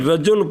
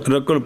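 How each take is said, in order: First: The middle consonant is a J sound. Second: The middle consonant is a Q sound. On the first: The speaker calls it right. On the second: The speaker calls it wrong.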